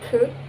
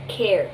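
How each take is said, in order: First: The vowel is a flat 'er' sound. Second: The vowel is an 'air' diphthong. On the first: The speaker calls it wrong. "not cur" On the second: The speaker calls it right. "but care"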